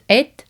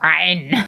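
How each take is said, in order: First: It ends with a d-like sound. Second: It ends with a plain n sound. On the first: The speaker calls it right. "but apparently it's ed" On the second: The speaker calls it wrong. "which I would Germanically go ein"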